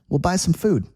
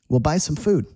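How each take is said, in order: Both takes have the same delivery.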